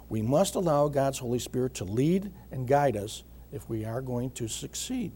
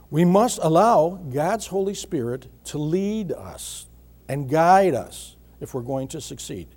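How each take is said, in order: First: Said in the usual way. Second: Deliberate preacher's emphasis on must and lead; emphatic repeat. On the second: Shown as a demonstration. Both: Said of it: "And I emphasize the word lead".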